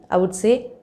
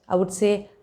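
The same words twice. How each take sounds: No difference in how they are said.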